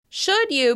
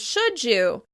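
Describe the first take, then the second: First: The d is kept before 'you'. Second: The d and y blend into a j sound.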